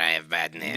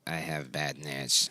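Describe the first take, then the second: First: The voice sounds like a phone call. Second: The voice sounds normal, not like a phone.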